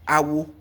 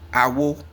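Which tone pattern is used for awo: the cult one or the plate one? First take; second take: cult; plate. First: Said with the tones of the word meaning cult. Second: Said with the tones of the word meaning plate. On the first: It means cult. "Awo, cult" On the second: It means plate. "Awo, plate"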